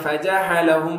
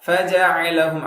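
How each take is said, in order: First: The middle consonant is a breathy h sound. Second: The middle consonant is a deep throat ain. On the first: The speaker calls it wrong. "ஹ மாதிரி ஃபஜஅலஹும் அப்படி சொல்லக்கூடாது" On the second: The speaker calls it right. "ஐன்"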